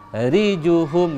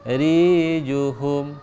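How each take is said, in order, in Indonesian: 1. Semua vokal pendek tetap dibaca pendek. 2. Vokal pendek dibaca panjang. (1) "gitu bacanya" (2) "akhirnya ada yang tertarik"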